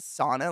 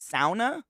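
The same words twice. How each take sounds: First: The first syllable rhymes with saw. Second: The first syllable rhymes with cow. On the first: "we're all pronouncing it sauna like idiots" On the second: "Like a pig?"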